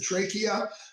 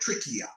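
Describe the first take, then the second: First: The word has a non-Australian pronunciation. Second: The word has an Australian pronunciation.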